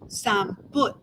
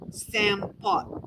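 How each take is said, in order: First: The word has an M and a U vowel. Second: The word has an M and an O vowel. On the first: This is another region's form. "keep the M but change it the O to a U" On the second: This is the speaker's own regional form. "I say Sam Pot with an M and an O"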